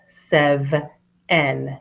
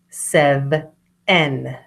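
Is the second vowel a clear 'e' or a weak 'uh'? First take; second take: clear e; clear e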